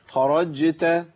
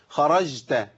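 First: The middle consonant is a clear j. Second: The middle consonant sounds close to sh. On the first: The speaker calls it right. "طب اسمعوا الجيم دي، ... ايوه كده" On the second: The speaker calls it wrong. "طب بالله عليكم سمعتوا مني جيم؟"

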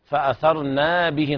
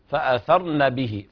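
First: The vowel after the n is drawn out long. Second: The vowel after the n is short and quick. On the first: The speaker calls it wrong. "بعض الناس يقرأ خطأ فأثرن به نقعا، يمد الإيه ألف بعد النون" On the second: The speaker calls it right. "تقرأ النون بسرعة هكذا بدون مد"

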